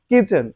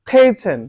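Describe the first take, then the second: First: The first k is plain, without a puff. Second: The first k has a strong puff of air. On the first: The speaker calls it wrong. "যখন তোমরা এটাকে কে বলবা... শুনতে ভালো লাগে না" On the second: The speaker calls it right. "আমরা যদি এটার উচ্চারণ খে বলি"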